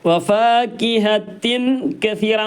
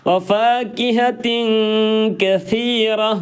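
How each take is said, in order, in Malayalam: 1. മധ്യത്തിലുള്ള വ്യഞ്ജനം 'th' ശബ്ദമല്ല. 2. മധ്യത്തിലുള്ള വ്യഞ്ജനം 'th' ശബ്ദമാണ്. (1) "എന്നല്ല" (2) "അത് സ എന്ന് തന്നെ പറയണം"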